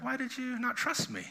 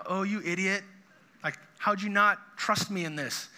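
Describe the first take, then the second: First: Higher, softer, tender question; gentle dad. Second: Mildly exasperated scolding, barely raised; a hint of an impatient put-down; annoyed Jesus. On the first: Retold or imitated. Dad gently asking a kid who messed up, tender. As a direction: ask it like a patient father, not scolding. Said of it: "that's the tone of Jesus in this story". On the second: Jesus scolding Peter for sinking, mildly annoyed. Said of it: "Jesus is so annoyed with Peter".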